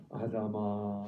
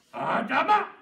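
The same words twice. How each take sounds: First: Tender loving call. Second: Loud, high barking call; not like this, a harsh yell; harsh shout. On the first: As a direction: call him gently like a lover. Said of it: "사랑하는 사람 부르는 것처럼". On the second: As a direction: yell the name sharply. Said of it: "이러지 않으셨어". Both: Shown as a demonstration.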